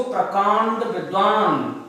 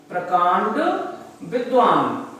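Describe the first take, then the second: First: Said in the usual way. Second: One word at a time, paused between; dictation. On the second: Shown as a demonstration. Teacher repeating the meaning for note-takers, word-by-word dictation. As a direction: pause clearly between "प्रकांड" and "विद्वान". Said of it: "आप लिख लीजिए इसको".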